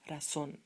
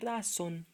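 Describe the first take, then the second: First: The stress is on the last syllable. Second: The stress is on the first syllable. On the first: The speaker calls it right. "Accent falls on here" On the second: The speaker calls it wrong. "not razón"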